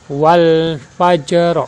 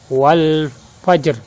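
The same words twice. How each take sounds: First: The final vowel ending is pronounced. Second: The final vowel ending is dropped. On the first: This is the full written form. "Kalimat aslinya" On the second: This is how it is read when stopping. "Cara membacanya"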